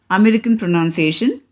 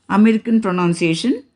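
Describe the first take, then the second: No difference in how they are said.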